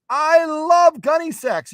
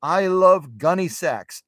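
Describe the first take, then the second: First: Very high, loud, drawn-out fan gush; hammed-up squeal of enthusiasm, stretched slowly; over-excited viewer. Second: Slow, higher-pitched imitation of a fan; eager viewer. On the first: Acting a viewer, escalated repeat. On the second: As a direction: draw it out with acted enthusiasm. Acting a viewer, first take before escalation.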